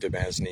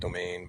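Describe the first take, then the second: First: The word does not sound like 'domain'. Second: The word sounds like 'domain'. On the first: The speaker calls it wrong. "I'm going to pronounce it Demesne" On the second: The speaker calls it right. "it's actually pronounced domain"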